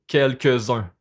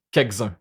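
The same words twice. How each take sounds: First: Said in the usual way. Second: "Quelques-uns" said as "kek-zun", with the l dropped; Quebec "Quelques-uns", l swallowed. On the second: Shown as a demonstration. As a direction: clip "Quelques-uns" down to "kekzun". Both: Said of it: "on va dire quelques".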